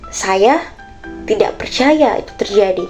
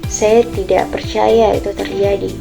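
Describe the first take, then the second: First: The sentence is said in a confused tone. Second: The sentence is said in a sad tone.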